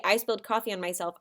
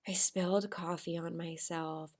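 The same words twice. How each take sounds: First: Said in the usual way. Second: Soft, hushed line; whispered. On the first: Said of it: "I didn't just say". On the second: Shown as a demonstration. Teacher replaying her quiet reply. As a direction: murmur it quietly. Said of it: "how I whispered".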